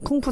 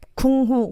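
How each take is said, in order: First: The second syllable begins with an f sound. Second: The second syllable begins with an h sound. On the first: The speaker calls it right. "푸 발음이 맞으니까" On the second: The speaker calls it wrong. "제 후 발음이"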